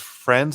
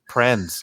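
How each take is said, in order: First: The word begins with an f sound. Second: The word begins with a p sound. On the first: The speaker calls it right. "he pronounces friends as prens" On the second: The speaker calls it wrong. "he pronounces friends as prens"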